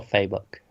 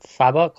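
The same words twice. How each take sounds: First: "Fabok" with a long a, FAY-book; offering "Fabok" as FAY-book instead; long-a pronunciation. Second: "Fabok" with a short a, FAB-uck; weighing "Fabok" as FAB-uck; short-a pronunciation. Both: Shown as a demonstration. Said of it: "Fabok or Fabok".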